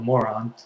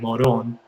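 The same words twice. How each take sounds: First: It is said as its English spelling suggests. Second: It is said the way locals say it. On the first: The speaker calls it wrong. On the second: The speaker calls it right.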